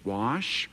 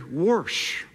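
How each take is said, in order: First: The word is said without an r sound. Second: The word is said with an r sound.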